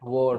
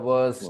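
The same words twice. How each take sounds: First: The vowel sounds like a rounded o. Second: The vowel sounds like the u in sun. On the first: The speaker calls it wrong. "not worst. It's not O" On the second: The speaker calls it right. "O is pronounced uh, just like S O N sun"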